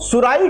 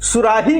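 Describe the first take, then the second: First: No h sound comes before the final vowel. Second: An h sound comes before the final vowel. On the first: This is the regional dialect form. "सुराही को सुराई कहते हैं" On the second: This is the standard form. "हा महाप्राण है"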